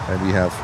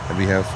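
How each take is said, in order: No difference in how they are said.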